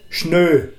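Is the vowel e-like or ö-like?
ö-like. The vowel is rounded, like ö. This is the local dialect form.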